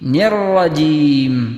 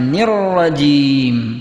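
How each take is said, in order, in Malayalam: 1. rajim-ന് മുമ്പുള്ള അക്ഷരത്തിൽ i സ്വരമുണ്ട്. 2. rajim-ന് മുമ്പുള്ള അക്ഷരത്തിൽ i സ്വരമുണ്ട്.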